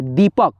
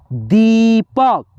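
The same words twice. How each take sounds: First: Said in the usual way. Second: दीपक with a slow, held दी; दीपक said slowly as deee-pak; stretched long ee. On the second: Shown as a demonstration. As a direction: drag out the ee in दीपक. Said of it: "खींच करके आवाज़ आया".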